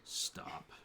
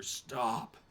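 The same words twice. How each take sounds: First: Put-on old woman whispers "Stop." once she arrives; hushed command. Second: Sharp loud call of "Stop!" from the trees; commanding shout. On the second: Acted. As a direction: bark "Stop!" to halt the fight. Forest figure halts the attack.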